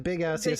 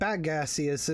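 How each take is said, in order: First: The first syllable sounds like 'big'. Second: The first syllable sounds like 'bag'. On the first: This is the joke version others suggested. "you changed it to Big Assius" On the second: This is how the name first sounded to him. "It was like B A G, like a bag"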